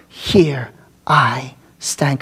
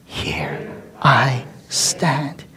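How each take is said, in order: First: "Here I stand" low, slow and deliberate; slow solemn "Here I stand"; slow declaration. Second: "Here I stand" whispered very slowly; hushed whispered "Here I stand"; whispered echo. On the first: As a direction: lay down "Here I stand" slowly, stressing I. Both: Shown as a demonstration. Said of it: "Can you say that with me?".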